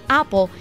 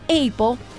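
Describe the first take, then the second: First: It is pronounced with English sounds. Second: It is pronounced with Spanish sounds. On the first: The speaker calls it right. "en inglés se pronuncia como apple" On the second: The speaker calls it wrong. "y no apple"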